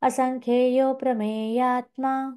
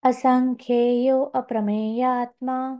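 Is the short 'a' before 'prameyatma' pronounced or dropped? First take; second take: dropped; pronounced. First: The short 'a' before 'prameyatma' is dropped. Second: The short 'a' before 'prameyatma' is pronounced. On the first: The words are joined as they are in recitation. "आता तिथे तो अ दिसणार नाही कारण संधी आहे" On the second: The word is kept separate so it can be recognized. "अप्रमेय शब्द कळावा म्हणून सुरुवातीला उच्चारला होता"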